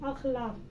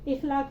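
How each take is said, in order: First: The word begins with an 'a' vowel. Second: The word begins with an 'i' vowel. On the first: The speaker calls it right. "हम क्या बोलेंगे? अखलाक" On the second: The speaker calls it wrong. "इखलाक नहीं"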